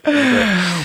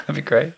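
First: That'd be great in a much higher put-on voice; a high mock echo of That'd be great. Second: Said in the usual way. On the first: Shown as a demonstration. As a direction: squeak it out as a joke.

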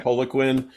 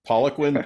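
First: Poliquin with a long O, POH-luh-kwin; alternative pronunciation. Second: Poliquin with an open "PAH" first syllable; first pronunciation guess. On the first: Host trying the coach's name another way, Poliquin said POH-luh-kwin. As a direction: say Poliquin starting like "pole". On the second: Host unsure of the coach's name, Poliquin said PAH-luh-kwin. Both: Shown as a demonstration. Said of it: "I don't know who this is".

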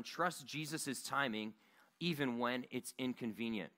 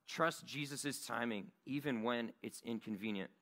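First: Slow dictation. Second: Said in the usual way. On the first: Shown as a demonstration. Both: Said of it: "you can go ahead and write this down".

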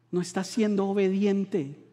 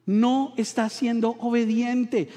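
First: Said in the usual way. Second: "No estás siendo obediente" said slow and deliberate, stressing "no"; slower emphatic rebuke. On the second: Retold or imitated. God rebuking his people, slow and deliberate. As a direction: drag it out, lean on "no". God's rebuke repeated twice.

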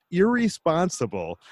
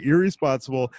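First: Said in the usual way. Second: Irresponsible with the Erie part punched; stress on Erie. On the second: Shown as a demonstration. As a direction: lean on the Erie in Irresponsible, like the lake. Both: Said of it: "with emphasis on the word Erie".

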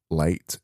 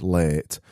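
First: Said in the usual way. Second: "late" with a drawn-out, open Barnsley vowel; Barnsley pronunciation. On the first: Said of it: "it's not late". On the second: Shown as a demonstration. Host correcting to his Barnsley way, long-vowelled "late". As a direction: lengthen the vowel of "late", like "lairt". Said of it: "we extend our vowels".

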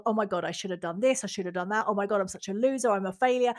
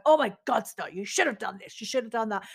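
First: Mild mock self-criticism; self-berating. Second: Mild mock self-scolding, half-hearted; telling myself off. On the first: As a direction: run yourself down, a touch mocking. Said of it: "saying to myself". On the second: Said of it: "telling myself off".

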